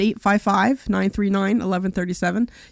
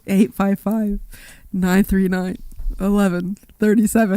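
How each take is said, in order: First: It is said in a plain, normal voice. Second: It is said in an exaggerated circus-like voice.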